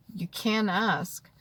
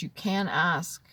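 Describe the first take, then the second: First: Gentle slow repeat, "can" leaned on; slow emphatic repeat. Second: Said in the usual way. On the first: Shown as a demonstration. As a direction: stretch out "can" to reassure.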